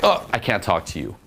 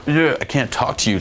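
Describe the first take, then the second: First: Light mock refusal; playful. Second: Mock-sulky, higher-pitched refusal; butthurt. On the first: Coach showing guys a takeaway, playful. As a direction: tease without any real hurt. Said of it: "just very playful". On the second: Coach showing guys what to avoid, butthurt whine. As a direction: play it hurt and too serious. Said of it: "like, butt hurts". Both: Shown as a demonstration.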